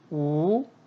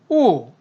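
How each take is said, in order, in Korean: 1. 음높이가 중간에서 높게 올라가요. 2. 음높이가 높은 데서 낮게 급하게 떨어져요. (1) "이성일 때는" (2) "사성일 경우에는"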